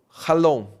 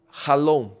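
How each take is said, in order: Both takes have the same delivery.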